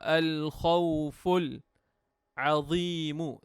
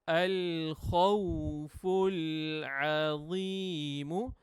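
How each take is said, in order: First: There is a pause between the two words. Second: The two words run together without pause.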